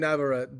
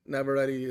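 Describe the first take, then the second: First: "Navarrete" ending in "-ret"; Kevin Feige's pronunciation. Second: "Navarrete" ending like "ready"; intended pronunciation. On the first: Retold or imitated. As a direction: say "Navarrete" without the final "-ee", like cigarette. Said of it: "Kevin Feige said". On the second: Shown as a demonstration. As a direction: say "Navarrete" with a sounded final "-ee". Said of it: "the way it's meant to be said".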